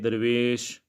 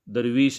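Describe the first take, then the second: First: The last vowel is a mid 'ay' sound. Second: The last vowel is a high 'ee' sound. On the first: The speaker calls it right. "इसको मजहूल पढ़ेंगे या को" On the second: The speaker calls it wrong. "दरवीश नहीं पढ़ सकते"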